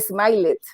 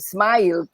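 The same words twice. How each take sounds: First: The ending is an extra separate syllable. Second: The ending is a plain d sound. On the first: The speaker calls it wrong. "no smiled" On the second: The speaker calls it right.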